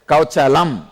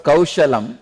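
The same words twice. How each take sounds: First: KAUCHALAM with "ch" in place of "sh"; Keralan pronunciation. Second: Said in the usual way. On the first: Retold or imitated. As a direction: imitate his "Kauchalam", a clear "ch" sound. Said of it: "he said". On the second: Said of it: "Instead of".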